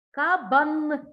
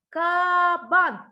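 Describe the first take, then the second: First: КАБАН with the last Н held on; stressed final N. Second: КАБАН with КА held long and loud; stretched first A. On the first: Teacher pointing out the fifth sound, final Н held in КАБАН. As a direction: say КАБАН loudly and linger on the final Н. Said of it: "П'ятий Н". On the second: Teacher asking for the second sound, first А stretched in КАБАН. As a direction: draw out the А of КА in КАБАН. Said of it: "який другий звук?". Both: Shown as a demonstration.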